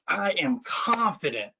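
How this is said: It is said with conviction and belief.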